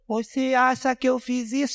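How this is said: It is said in a whiny, babyish voice.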